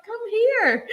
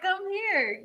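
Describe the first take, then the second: First: Higher, laughing call; "Come here" sung out high and eager; eager beckoning. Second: Said in the usual way. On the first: Retold or imitated. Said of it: "And I was like". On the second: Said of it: "I'm like".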